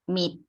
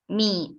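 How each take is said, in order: First: It is said with the tone for quiet. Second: It is said with the tone for knife. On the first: The word means quiet. "the word for quiet is" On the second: The word means knife. "the word for knife in Lao is"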